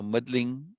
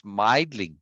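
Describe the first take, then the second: First: Middling said slowly, short "i" as in middle; middling with two Ds. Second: Meidling said slowly, long "ei" like "eye"; Meidling with one D. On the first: Teacher settling on the two-D spelling, slow middling. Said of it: "definitely two Ds". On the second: Teacher weighing the one-D spelling, slow Meidling. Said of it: "if it's one D". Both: Shown as a demonstration.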